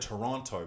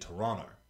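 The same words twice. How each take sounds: First: Toronto is said in the speaker's own American way. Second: Toronto is said the way locals say it. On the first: The speaker calls it wrong. "I said Toronto" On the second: The speaker calls it right. "apparently it's actually Toronto"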